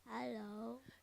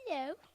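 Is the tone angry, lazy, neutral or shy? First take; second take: lazy; shy. First: It is said in a lazy tone. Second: It is said in a shy tone.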